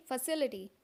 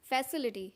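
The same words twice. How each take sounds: First: "फैसिलिटी" said fuh-SIL-i-ti; reduced first vowel, stressed SIL in "फैसिलिटी"; correct pronunciation. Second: "फैसिलिटी" said FAS-i-li-ti; wrong pronunciation. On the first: Teacher models for learners, "फैसिलिटी" as fuh-SIL-i-ti. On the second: Teacher shows what not to say, "फैसिलिटी" as FAS-i-li-ti. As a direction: open "fa" as in fan starting "फैसिलिटी". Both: Shown as a demonstration. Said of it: "ना कि".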